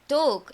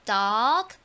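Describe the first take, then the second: First: The vowel is a rounded 'oh' sound. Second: The vowel is an open 'aw' sound. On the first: The speaker calls it wrong. "저희 보통 오렌지, dog 이렇게 많이 하시잖아요" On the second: The speaker calls it right. "그게 아니라 어 발음이었었어요"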